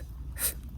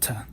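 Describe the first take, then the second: First: The consonant is a th sound. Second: The consonant is a t sound. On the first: The letter has no dot. "When it doesn't have a dot, it's pronounced as th" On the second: The letter has a dot. "When Tau has a dot, it's pronounced as T"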